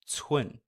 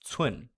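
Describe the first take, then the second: Both takes have the same delivery.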